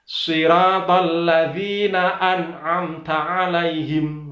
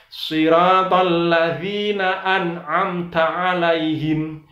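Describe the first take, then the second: The two takes are said the same way.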